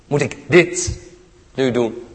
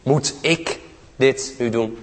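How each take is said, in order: First: The stress falls on the word dit. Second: The stress falls on the word ik.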